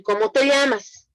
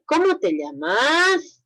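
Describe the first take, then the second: First: Exclaimed tune. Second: Rising question tune on "¿Cómo te llamas?". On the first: Teacher contrasting the falling version for students, falling tune. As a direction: say "¿Cómo te llamas?" as a firm falling statement. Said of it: "son diferentes, entonces la entonación es diferente". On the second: Teacher showing students a real question, rising tune. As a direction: ask "¿Cómo te llamas?" slowly, voice rising at the end. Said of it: "A diferencia de decir". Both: Shown as a demonstration.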